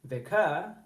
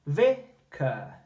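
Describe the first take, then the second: First: "vicar" as vi-CAR, last syllable stressed and rising; stress on second syllable. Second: "vicar" as VI-cuh, VI raised and drawn out slowly; stress on first syllable. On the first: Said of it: "you wouldn't say vicar". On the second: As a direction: punch VI, drop to a weak cuh in "vicar". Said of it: "it's the first syllable in those words that rises". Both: Shown as a demonstration.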